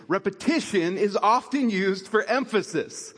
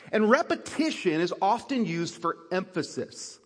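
First: "Repetition is often used for emphasis" said again with weight on "often"; repeated for emphasis. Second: Said in the usual way. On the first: Shown as a demonstration. Pastor repeating the point so the congregation remembers it, emphatic. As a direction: lean on "often" the second time round. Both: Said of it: "Let me say that again".

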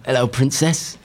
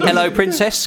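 First: Higher, put-on Essex greeting; Essex accent. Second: Higher Essex catchphrase; Essex accent. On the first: Bandmate copying the host's line, bad Essex accent. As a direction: attempt an Essex accent, badly. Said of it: "What's your best Essex accent here on the radio?". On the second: Host giving the next line to copy, Essex accent. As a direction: model a cheeky Essex greeting. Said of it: "What's your best Essex accent". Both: Shown as a demonstration.

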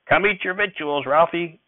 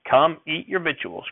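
First: Put-on high, sharp snap at the boy; snapped order. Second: Slower, insistent repeat; snapped order. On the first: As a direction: bark it, impatient and hurried. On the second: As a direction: drag out the nagging command. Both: A narrator's reading. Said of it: "Grandfather snapped at me".

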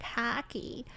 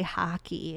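First: Soft mocking echo of "Hockey"; mimicked pronunciation. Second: Said in the usual way. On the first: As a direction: parrot "Hockey" back, pitched up and quiet. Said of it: "and people are like". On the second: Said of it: "there's certain words I'll say".

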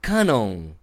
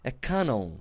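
First: Canon as /kana/, open a; a first guess at the Japanese Canon; first try at Japanese. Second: Canon said "keh-non" with an E sound; correcting Canon after the clip; corrected pronunciation. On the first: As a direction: Canon said "kah-nah", flat. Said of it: "Olha, errei". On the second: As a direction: copy the clip: Canon as "ken-on". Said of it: "é com E". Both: Shown as a demonstration.

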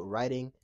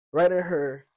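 First: Said in the usual way. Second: Writing said loud and falling; stress on writing. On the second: Real, not acted. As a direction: hit writing hard, then drop.

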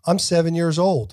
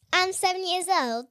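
First: Higher, louder stab at British; badly faked British accent, pushed up; attempted British accent. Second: Put-on child's British accent, pitched higher. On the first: Shown as a demonstration. Host trying British after the kid's, badly faked British accent. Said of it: "My British accent". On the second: Kid showing hosts a famous British accent, put-on British. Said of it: "like a British accent".

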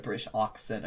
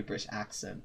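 First: "accent" with a broad "ah" first vowel. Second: "accent" with a short "a" as in cat. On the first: Player correcting own accent, "accent" opened with "ah". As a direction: say "accent" as "AHK-sent". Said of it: "I gotta do British accent". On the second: Player correcting own accent, "accent" opened with short "a". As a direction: say "accent" as "AK-sent". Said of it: "instead of British accent". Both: Shown as a demonstration.

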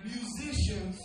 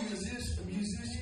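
First: "Musicians" said carefully with its full ending; corrected pronunciation. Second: "musicians" fumbled, its ending slurred; stumbled pronunciation. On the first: Preacher retrying a word he tripped on, "Musicians" fully pronounced. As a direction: land every syllable of "Musicians". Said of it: "that's my Southern California accent getting in the way". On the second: Preacher thanking the band stumbles on the word, "musicians" fumbled. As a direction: trip over the ending of "musicians". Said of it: "you know what the word I'm trying to say". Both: Real, not acted.

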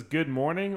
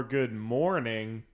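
First: "Good morning" with a light upward lift; rising good morning. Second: "Good morning" drawn out slowly and lower. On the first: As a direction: let "morning" rise at the end. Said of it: "Ted wakes up and says". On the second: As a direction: stretch "Good morning" slow and low. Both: Pretend.

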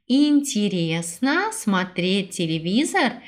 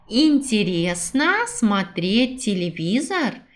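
No difference in how they are said.

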